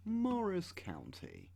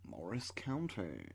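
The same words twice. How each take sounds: First: Much higher, slow Morris County; mock grand naming. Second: Said in the usual way. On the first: Shown as a demonstration. Repeating the county name to himself, now high and slow.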